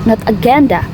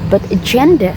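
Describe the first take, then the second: First: The final vowel is a full, clear vowel. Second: The final vowel is reduced to a schwa. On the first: The speaker calls it wrong. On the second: The speaker calls it right. "schwa at the end of the words"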